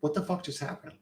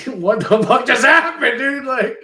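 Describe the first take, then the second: First: Stunned disbelief. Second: Disbelief shout. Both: Retold or imitated. Stunned after meeting the husband.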